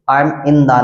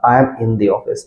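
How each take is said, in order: First: The said as "thuh", short uh; the as "thuh", marked wrong; wrong "thuh" demo. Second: The said as "thee", long ee; the as "thee" before office; "thee" before vowel. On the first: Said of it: "नहीं बोलेंगे आप". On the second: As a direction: show the right long "thee" for the. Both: Shown as a demonstration.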